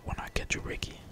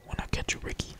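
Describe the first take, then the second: No difference in how they are said.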